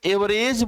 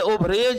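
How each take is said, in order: First: The word begins with an 'e' sound. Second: The word begins with an 'o' sound. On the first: The speaker calls it right. "ये एवरेज बोलना चाहिए" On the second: The speaker calls it wrong. "उसको लोग ओवरेज बोलते हैं। लेकिन ओवरेज क्या है? गलत है।"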